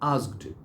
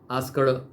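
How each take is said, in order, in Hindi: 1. अंत में नरम ट ध्वनि है। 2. अंत में भारी ड ध्वनि है। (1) "ट करना है, ड नहीं।" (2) "ऐसा नहीं।"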